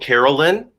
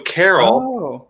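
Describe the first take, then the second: First: An extra vowel sound follows Carol. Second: No extra vowel sound follows Carol. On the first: The speaker calls it wrong. "you're doing a shadow vowel" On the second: The speaker calls it right. "You just go Carol"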